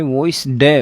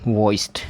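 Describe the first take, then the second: First: The ending is a separate d syllable. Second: The ending is a joined t sound. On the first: The speaker calls it wrong. "वॉइस डे ऐसे नहीं बोलना आपको।" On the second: The speaker calls it right. "इस ED का उच्चारण टे होगा"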